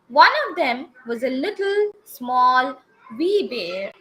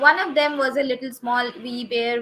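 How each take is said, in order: First: Short pauses separate little, small and wee. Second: The words run together without any pauses. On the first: The speaker calls it right. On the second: The speaker calls it wrong.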